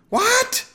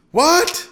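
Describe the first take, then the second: First: Very high, loud screamed question; piercingly high yelled question. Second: Loud, high husband's shout; yelled, rising question. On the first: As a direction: scream it as the wife over a din. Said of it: "his wife screamed". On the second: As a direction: shout the question over a racket. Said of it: "he shouted". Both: A narrator's reading.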